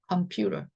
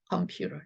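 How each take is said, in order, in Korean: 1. t는 l 같은 탄음으로 부드럽게 바뀝니다. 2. t는 l 같은 탄음으로 부드럽게 바뀝니다.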